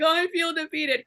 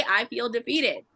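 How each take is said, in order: First: High, whiny imitation of crying; mock crying. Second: Said in the usual way. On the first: Woman retells repeating Leo's line, high mock-crying voice. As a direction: wail it lightly, making fun of yourself. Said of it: "crying, you know". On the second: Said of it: "You gotta say it out loud".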